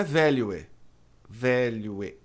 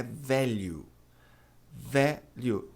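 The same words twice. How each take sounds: First: Value as valuê; wrong pronunciation. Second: Value ending in u, like velho; correct pronunciation. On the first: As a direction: say value ending in ê. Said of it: "A pronúncia não é". (value terminando em ê) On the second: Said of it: "A pronúncia é". (value soando como velho) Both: Shown as a demonstration.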